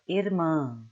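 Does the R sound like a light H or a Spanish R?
Spanish R. The R sounds like a Spanish R. "like the Spanish R"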